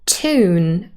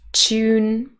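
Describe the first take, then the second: First: No y sound comes before the vowel. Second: A y sound comes before the vowel. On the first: The speaker is probably from North America. "without the y" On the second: The speaker is probably from Britain. "with a y or a j"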